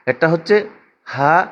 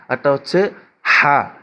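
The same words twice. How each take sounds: The two takes are said the same way.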